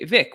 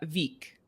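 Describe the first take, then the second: First: The name is said the English way. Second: The name is said the Icelandic way. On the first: The speaker calls it wrong. "you say Vik, which is totally makes sense when you speak English" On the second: The speaker calls it right. "this one is uh"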